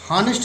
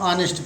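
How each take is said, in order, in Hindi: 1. शब्द h ध्वनि से शुरू होता है। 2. शब्द सीधे एक स्वर से शुरू होता है। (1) "हॉनेस्ट इसको नहीं पढ़ेंगे" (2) "इसको ऑनेस्ट पढ़ेंगे"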